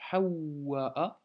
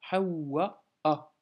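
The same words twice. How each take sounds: First: Hawwa'a slowly with a doubled w; doubled waw. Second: Hawwa'a slow, doubled w then a hamza catch; hamza stop. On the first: Teacher showing the doubled waw, slowly. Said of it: "on doit doubler le waw". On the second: Teacher detailing hamza, slowly. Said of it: "blocage hamza ensuite". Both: Shown as a demonstration.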